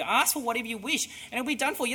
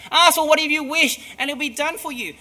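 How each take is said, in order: First: Said in the usual way. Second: Excited emphasis. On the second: Shown as a demonstration. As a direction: repeat the promise louder and higher, with wonder. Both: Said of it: "That's amazing".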